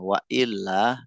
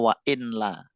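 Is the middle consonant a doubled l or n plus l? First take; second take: doubled l; n plus l. First: The l is held long, doubled. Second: An n sound comes before the l. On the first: "pengucapan ilahnya ditekan ya" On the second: "Aslinya wa inla"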